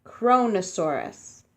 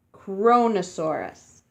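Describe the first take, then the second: First: Kronosaurus said clearly, KRO-no-SAU-rus; careful pronunciation. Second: Said in the usual way. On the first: Shown as a demonstration. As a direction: sound out Kronosaurus for kids. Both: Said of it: "you say it like this".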